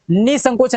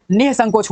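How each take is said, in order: First: निसंकोच with ni straight into s; missing breath sound. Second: निसंकोच as nih-sankoch; added h. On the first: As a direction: say निसंकोच as nis-sankoch. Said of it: "नहीं होता". (निसंकोच, नि के बाद सीधे स) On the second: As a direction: breathe an h after ni in निसंकोच. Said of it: "होता है". (निसंकोच, नि के बाद विसर्ग) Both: Shown as a demonstration.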